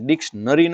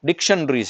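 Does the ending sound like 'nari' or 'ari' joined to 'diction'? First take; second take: nari; ari. First: The ending is said as a separate 'nari' syllable. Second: The ending is said as 'ari' joined to 'diction'. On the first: The speaker calls it wrong. "ડિક્શનરી નથી" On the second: The speaker calls it right. "ડિક્શનરી છે"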